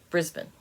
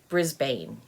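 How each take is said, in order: First: The word is said the Australian way. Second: The word is said the American way. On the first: "In Australia, it's pronounced" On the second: "if you're an American and you see this word, you want to pronounce it"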